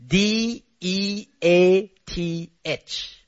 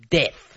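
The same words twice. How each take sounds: First: D E A T H spelled out slowly, letter by letter. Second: Death dropped low with a falling end. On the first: Pastor spelling the word to the congregation, slow and deliberate. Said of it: "you remember the word?". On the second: Pastor driving the word home to the congregation, low and final. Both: Shown as a demonstration.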